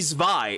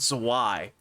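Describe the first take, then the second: First: The W is said as a V sound. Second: The W is said as a W sound. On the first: The speaker calls it right. "it should be Zwei is the point" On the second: The speaker calls it wrong. "not Zwei"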